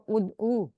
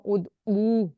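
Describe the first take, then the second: First: "ادعو" with a short final u; short final vowel. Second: "ادعو" with a long drawn-out oo; long final vowel. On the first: Teacher quizzes the singular reply, short final vowel in "ادعو". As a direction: keep the end of "ادعو" brief. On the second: Teacher quizzes the plural reply, long final vowel in "ادعو". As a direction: stretch the end of "ادعو". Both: Shown as a demonstration. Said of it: "اس difference سے ہم پڑھیں گے واحد جمع کو".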